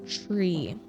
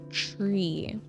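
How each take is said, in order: No difference in how they are said.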